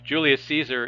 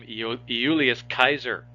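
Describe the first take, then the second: First: Caesar begins with a soft S sound. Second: Caesar begins with a hard K sound. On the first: This is the later European way of saying it. "the Romans would never pronounce his name like that" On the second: This is how the ancient Romans said it. "The Romans would pronounce his name Iulius Caesar"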